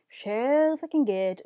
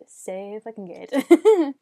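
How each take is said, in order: First: Slow, drawn-out emphasis; emphatic. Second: Slow and louder, laughing through it; laughing emphasis. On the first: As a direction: stretch each word out with relish. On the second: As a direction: drag it out, grinning and laughing. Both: Real, not acted.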